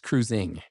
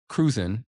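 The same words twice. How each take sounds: First: The final g sound is pronounced clearly. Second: The final g sound is dropped. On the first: The speaker calls it right. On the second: The speaker calls it wrong.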